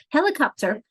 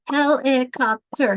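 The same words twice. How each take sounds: First: Said in the usual way. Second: Helicopter said slowly as he-li-cop-ter; slow helicopter broken into syllables; clapped syllables. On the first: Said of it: "confused on how many things you actually clapped". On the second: Shown as a demonstration. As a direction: clap out each beat of helicopter. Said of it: "I was clapping them".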